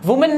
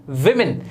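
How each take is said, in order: First: वुमेन with an "oo" start, "WOO-mun"; wrong pronunciation. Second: विमेन with short i vowels, lower and falling; correct pronunciation. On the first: Teacher shows learners the mistake, वुमेन said "woo-mun". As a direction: round first vowel in वुमेन. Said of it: "वुमेन नहीं होता". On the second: Teacher answers own question, विमेन said "wim-in". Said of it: "ये होता है". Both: Shown as a demonstration.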